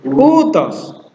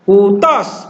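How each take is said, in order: First: The pitch rises on the first syllable, then falls. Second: The pitch does not rise on the first syllable. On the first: The speaker calls it right. "depan dulu naik, baru turun" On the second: The speaker calls it wrong. "bukan utos"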